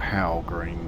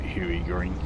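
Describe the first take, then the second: First: The first word sounds like 'howell'. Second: The first word sounds like 'huey'. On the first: It is read the way it is spelled. "It looks like Howell Green" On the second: It is the way the speaker habitually says it. "I always call it Huey Green"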